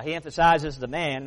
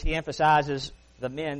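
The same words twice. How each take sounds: First: "man" said with a flat a, as in cat. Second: "men" said with a short e, as in Jews. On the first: Preacher sets "man" against "men" for the church. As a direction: point to "man", said "maan". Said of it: "that's Jesus". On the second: Preacher marks "men" apart from "man" for the church. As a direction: point to "men", said "mehn". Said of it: "that's the Jews". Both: Shown as a demonstration.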